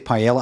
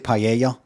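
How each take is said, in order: First: It is said with plain English pronunciation. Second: It is said with native-style foreign pronunciation. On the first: The speaker sounds ordinary. "I just say paella" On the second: The speaker seems to show off. "I don't say paella"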